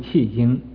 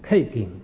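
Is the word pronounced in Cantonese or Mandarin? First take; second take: Mandarin; Cantonese. First: It is pronounced with Mandarin sounds. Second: It is pronounced with Cantonese sounds. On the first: "国语读气经" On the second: "你广东话读什么？ … 它读气经"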